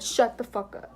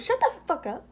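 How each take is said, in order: First: Said in the usual way. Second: High, dismissive retort; mock snap. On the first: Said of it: "straight up said". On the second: Alex snapping at Brandon, mocked in a high voice. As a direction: toss it back with a sneer. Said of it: "And Alex turned around and said".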